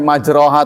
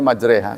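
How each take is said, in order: First: The vowel after the r sounds like 'o'. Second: The vowel after the r sounds like 'e'. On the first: This is how the word is written. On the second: This is how the word is actually recited. "tapi bacanya majreha"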